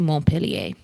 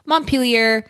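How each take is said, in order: First: The name is pronounced the French way. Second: The name is pronounced the English way. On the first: "If you want to be French about it, you can say Montpellier" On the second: "Your correct answer is indeed Montpelier"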